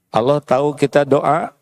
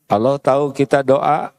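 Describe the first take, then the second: No difference in how they are said.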